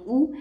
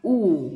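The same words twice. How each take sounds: First: The vowel is said short and quick. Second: The vowel is drawn out long. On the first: "short साऊंडमध्ये आपण वाचणार आहोत उ" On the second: "long साऊंडमध्ये आपण वाचणार आहोत उ"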